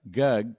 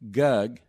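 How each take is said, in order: The two takes are said the same way.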